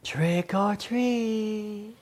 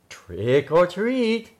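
First: It is said softly. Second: It is said a little louder.

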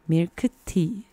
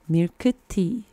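Both takes have the same delivery.

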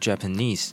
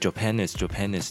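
First: The stress is on the last syllable. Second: The stress is not on the last syllable. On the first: The speaker calls it right. "它的重音会在最后面的e 上面" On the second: The speaker calls it wrong. "就是Japanese 这样子教"

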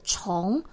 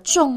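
First: The word is said as chóng, with a rising tone. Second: The word is said as zhòng, with a falling tone. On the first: The word means layered, one upon another. The speaker calls it right. "指的是山峦层层叠叠的样子，因此念作重" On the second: The word means heavy, as in weight. The speaker calls it wrong. "而不是重量的重哦"

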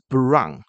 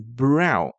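First: It is said with a Taiwanese-accented pronunciation. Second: It is said with a standard English pronunciation. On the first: The speaker calls it wrong. "而不是brown" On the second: The speaker calls it right. "它是brown"

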